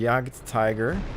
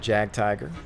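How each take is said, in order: First: The name is pronounced with German sounds. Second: The name is pronounced with English sounds.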